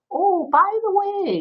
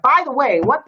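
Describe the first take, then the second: First: High, slow and light "Oh, by the way"; friendly inflection. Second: A touch of irritation on "By the way, what"; "By the way, what" said a bit louder and curt; mock angry. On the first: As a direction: say "Oh, by the way" lightly and slowly, drawn out high. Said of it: "your voice to be able to say". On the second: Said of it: "could come across as angry". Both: Shown as a demonstration.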